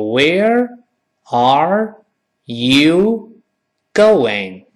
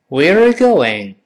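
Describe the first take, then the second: First: It is said slowly with each word apart. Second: It is said at a normal conversational speed.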